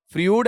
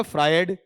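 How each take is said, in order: First: "फ्रूड" with a long oo vowel; mispronounced Freud. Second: "फ्रायड" with a gliding vowel, not oo; correct Freud pronunciation. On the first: Teacher offers students the slipped reading of Freud, mispronounced as "फ्रूड". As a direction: say "फ्रूड", rhyming with food. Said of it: "जबान धोखा दे गई साहब". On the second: Teacher corrects students on Freud's name, correctly pronounced "फ्रायड". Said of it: "फ्रायड है". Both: Shown as a demonstration.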